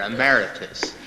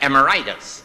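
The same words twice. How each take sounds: First: The word is said with its standard ending. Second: The word is said with an ending like 'arthritis'.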